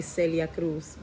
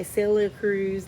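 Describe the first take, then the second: First: [name] said the Spanish way, ending on an s sound; proper Spanish pronunciation. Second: [name] in an accent that slips out; stray accent. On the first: Shown as a demonstration. Spanish speaker showing they know the name, [name] pronounced properly. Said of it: "I know how to say". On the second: Real, not acted. Reader keeps wanting to say the singer's name, in a stray accent. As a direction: let an odd accent take over [name]. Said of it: "like, again with the accent".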